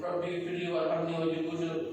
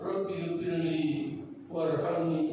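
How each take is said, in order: First: It is said quickly and rushed. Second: It is said slowly and calmly.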